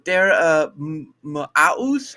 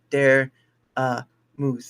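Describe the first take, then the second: First: The second part rhymes with mouse. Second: The second part rhymes with moose. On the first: The speaker calls it wrong. "people are just like" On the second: The speaker calls it right. "It's like dare, uh, moose"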